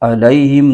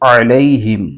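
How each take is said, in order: First: It starts with a plain glottal stop. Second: It starts with a squeezed sound from the mid-throat. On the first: The speaker calls it wrong. "आइन की जगह हमजा की आवाज के साथ पढ़ते हैं" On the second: The speaker calls it right. "आइन की आवाज निकलनी चाहिए"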